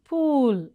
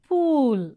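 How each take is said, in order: No difference in how they are said.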